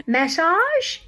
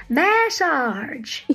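First: Massage? in a drawled Southern accent, rising. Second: Said in the usual way. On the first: Shown as a demonstration. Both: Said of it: "I can't even say massage in a Southern accent".

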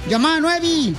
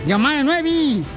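Both takes have the same delivery.

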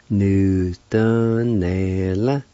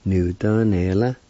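First: "Nu, da, ne, la." in drawn-out syllables. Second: Said in the usual way. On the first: Shown as a demonstration. Teacher pronouncing the word performed, "Nu, da, ne, la." syllable by syllable. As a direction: sound out "Nu, da, ne, la." piece by piece. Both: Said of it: "is pronounced like this".

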